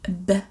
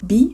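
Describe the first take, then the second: First: The letter is said as its short reading sound. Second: The letter is said as its alphabet name. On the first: The speaker calls it right. "ils disent B" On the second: The speaker calls it wrong. "ils disent pas B"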